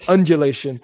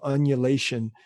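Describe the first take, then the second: First: The word is said with a d sound. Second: The word is said without a d sound. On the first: The speaker calls it right. "There you go" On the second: The speaker calls it wrong. "You forgot the D"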